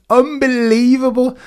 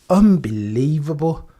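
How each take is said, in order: First: Higher, punchy unbelievable; excited disbelief. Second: Slow, drawn-out unbelievable; slow stunned disbelief. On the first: Streamer to chat about the pole, excited disbelief. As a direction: throw it out in shock. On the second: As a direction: let it sink in slowly. Disbelief at the result. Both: Real, not acted.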